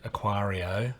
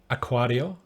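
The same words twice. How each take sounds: First: It is said with Australian long vowels. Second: It is said with a Spanish accent.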